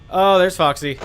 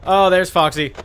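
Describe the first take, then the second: No difference in how they are said.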